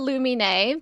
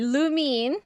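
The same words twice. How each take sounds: First: The name is said with Japanese-style pronunciation. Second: The name is said English-style, like loom. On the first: The speaker calls it wrong. "more of a Japanese pronunciation" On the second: The speaker calls it right. "As in a loom"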